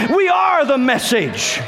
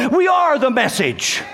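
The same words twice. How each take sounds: First: High, drawn-out preacher's shout; insistent repeat. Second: High, slow declaration to the congregation; emphatic preaching. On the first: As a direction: shout it slowly so they really hear. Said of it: "Oh, you didn't hear me". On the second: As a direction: proclaim it word by word. Preacher's climax, first take. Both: Real, not acted.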